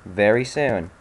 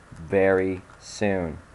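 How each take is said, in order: First: Said in the usual way. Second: "Very soon" drawn out very slow, "Very" leaned on; slow ominous threat, hammed up; mock menace. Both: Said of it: "repeated slowly after".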